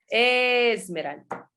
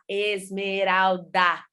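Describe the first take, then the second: First: The final vowel of the name is dropped. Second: The final vowel of the name is clearly pronounced. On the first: The speaker calls it wrong. "eles falavam Esmeralda" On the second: The speaker calls it right. "Tem um A no final, vocês nunca pronunciam o A"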